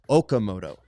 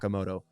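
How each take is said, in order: First: The name begins with an 'oh' sound. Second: The name begins with an 'ah' sound. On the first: The speaker calls it right. "correcting my uh, Okamoto pronunciation" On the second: The speaker calls it wrong. "not Akamoto"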